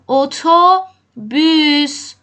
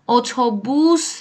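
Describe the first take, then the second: First: The last vowel is a front ü sound. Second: The last vowel is a back u sound. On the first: The speaker calls it right. "نقطه داره" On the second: The speaker calls it wrong. "بوس نگفتم، اتوبوس نیست"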